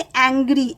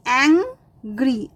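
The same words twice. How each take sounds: First: Said in the usual way. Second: एंग्री slowly broken as एंग, ग्री; split into syllables. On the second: Shown as a demonstration. (एंग्री धीरे, एंग और ग्री अलग-अलग) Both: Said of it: "दो syllable हैं".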